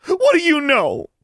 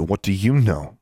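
First: Very high, loud desperate shout. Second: Said in the usual way. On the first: Acted. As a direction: scream it at her. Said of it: "Mary shouted".

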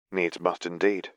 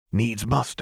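First: Dry and flat, no lift on "indeed"; flatly. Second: Said in the usual way. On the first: A narrator's reading. Lux echoing Singed's words back, flatly. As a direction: hand the phrase back with no interest. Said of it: "Lux said flatly".

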